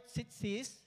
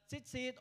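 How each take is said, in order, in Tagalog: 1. Nagtatapos ang salita sa tunog na s. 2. Nagtatapos ang salita sa tunog na t. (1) "Chitzit or chitsis" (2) "Chitzit or chitsis"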